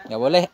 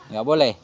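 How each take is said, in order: The two takes are said the same way.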